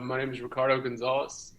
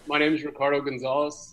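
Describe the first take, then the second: First: It is said quietly. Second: It is said more loudly.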